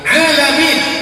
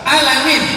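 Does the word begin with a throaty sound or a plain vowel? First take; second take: throaty; plain vowel. First: It begins with a throaty ain sound. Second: It begins with a plain a vowel. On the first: It means the worlds. The speaker calls it right. "alam semesta" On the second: It means pain. The speaker calls it wrong.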